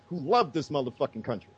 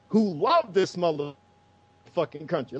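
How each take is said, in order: First: Said in the usual way. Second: Slow, drawn-out stress on "love"; "love" held long, the whole line slowed for emphasis; emphatic repeat. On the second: Real, not acted. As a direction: stretch out "love" and space the words after it.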